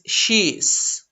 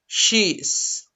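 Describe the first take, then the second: Both takes have the same delivery.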